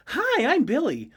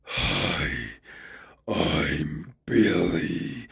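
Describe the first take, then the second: First: Put-on high, sweet child greeting; little boy voice. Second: Low, very slow monstrous growl; eldritch horror voice. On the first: Warforged Billy greeting people, high little-boy voice. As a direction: chirp it like a small boy. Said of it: "so he'd be like". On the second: Acted. Cursed Billy's greeting as others hear it, low and slow. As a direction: drag it out like a horror from beyond. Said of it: "all anyone would hear would be".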